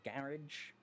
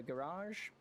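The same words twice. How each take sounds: First: "garage" said GARR-idge; first syllable stressed. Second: "garage" said ga-RAHZH; second syllable stressed. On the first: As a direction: say "garage" short, to rhyme with "carriage". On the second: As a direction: stretch the end of "garage" into a long -AHZH. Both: Shown as a demonstration. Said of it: "depending on ... whichever one floats your boat".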